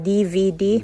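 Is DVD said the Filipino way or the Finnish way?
Filipino. The letters are said the usual Filipino way. "Alam mo yung D V D sa atin?"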